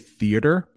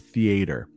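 First: The middle vowels are reduced, general American style. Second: The middle vowels are pronounced fully, Southern style. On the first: "if you say theater, everybody's going to know what you say" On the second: "They actually pronounce that A and the E in the middle there. So it's theater"

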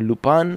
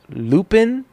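First: The name is pronounced the French way. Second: The name is pronounced the English way.

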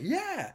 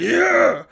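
First: The cheer sounds happy and joyful. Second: The cheer sounds angry and aggressive.

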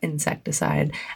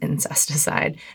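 First: The word begins with the sounds 'insect'. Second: The word begins with the sounds 'incest'. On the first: The speaker calls it wrong. "not Insecticide" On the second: The speaker calls it right. "actually, it is Incesticide"

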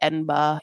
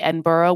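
First: The word stops short after its middle syllable. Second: The word is said with a full final syllable. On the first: The speaker calls it right. "how you have to say Edinburgh. You just kind of stop it after that" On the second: The speaker calls it wrong. "You don't say Edinburgh, which is what you want to say for American"

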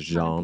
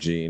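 First: The name is pronounced in a French way. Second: The name is pronounced in an English way. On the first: The speaker calls it right. "instead of Jean" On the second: The speaker calls it wrong. "I probably deserve to be reprimanded for saying Jean"

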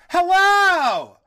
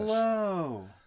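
First: It is said with exaggerated, excessive energy. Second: It is said flatly, with little energy.

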